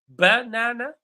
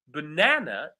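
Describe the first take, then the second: First: The stress is on the first syllable. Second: The stress is on the second syllable. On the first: "Do you think the stress falls on the first syllable" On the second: "the correct pronunciation is banana. So the stress falls on the second syllable"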